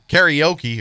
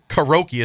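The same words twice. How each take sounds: First: It is said with an extra vowel sound. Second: It is said without an extra vowel sound.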